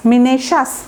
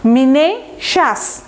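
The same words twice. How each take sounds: First: মিনেশাস joined up as "mi-ne-shas"; whole-word মিনেশাস, no break before "shas"; demonstrated pronunciation. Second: মিনেশাস slowly, broken as "mi-ne... shas"; syllable-by-syllable মিনেশাস with a clear "sh"; demonstrated pronunciation. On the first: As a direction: say মিনেশাস in one go, with "sh". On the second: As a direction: pause in মিনেশাস before "shas". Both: Shown as a demonstration. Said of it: "এইরকম একটা উচ্চারণ হবে".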